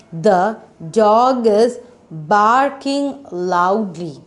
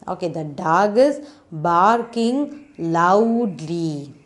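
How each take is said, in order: First: Slow, deliberate reading aloud; teacher modelling a sentence; slow model reading. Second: Said in the usual way. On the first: Shown as a demonstration. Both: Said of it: "What is the sound of the three-letter word?".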